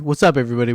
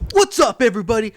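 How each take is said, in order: First: It is said in a calm, low-energy way. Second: It is said in a loud, high-energy way. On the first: The speaker calls it right. "I try to like keep it calm" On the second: The speaker calls it wrong. "I don't want to be like"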